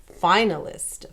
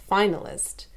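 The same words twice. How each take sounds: No difference in how they are said.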